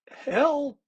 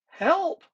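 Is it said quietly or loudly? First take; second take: quietly; loudly. First: It is said quietly. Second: It is said very loudly.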